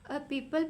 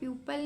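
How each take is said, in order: First: The first vowel is a plain ee sound. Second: The first vowel is a yoo sound. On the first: The speaker calls it right. "हम इसको पीपल पढ़ते हैं" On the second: The speaker calls it wrong. "प्यूपल नहीं पढ़ते"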